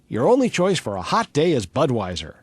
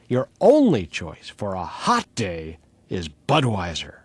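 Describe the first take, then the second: First: The line is read evenly without marked words. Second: Certain words are set off by a changed inflection.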